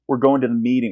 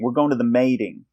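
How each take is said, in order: First: Meeting has a long 'ee' vowel. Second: Meeting has an 'ay' vowel. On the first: "instead of a, a double E sound" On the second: "So it's an A sound"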